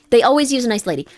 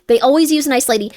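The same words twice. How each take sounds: First: "They" hit hardest, the rest falling away; stress on they. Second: "always" punched, said a bit louder and quicker; stress on always. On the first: Warning chat about cult recruiters, "They" stressed. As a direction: lean on "They" in "They always use a nice lady". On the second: Warning chat about cult recruiters, "always" stressed. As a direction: drive "always" home in "They always use a nice lady". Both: Real, not acted.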